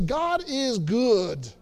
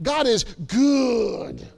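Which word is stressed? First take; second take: none; good. First: The last word gets no special emphasis. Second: The last word is strongly emphasized. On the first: The speaker calls it wrong. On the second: The speaker calls it right.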